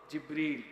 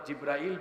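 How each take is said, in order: First: The name is said short, Jib-ril. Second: The name has an extra vowel, Jib-ra-il. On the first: The speaker calls it right. "সঠিক নাম শুদ্ধ উচ্চারণ হলো" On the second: The speaker calls it wrong. "আমরা অনেকে ভুল উচ্চারণ করি"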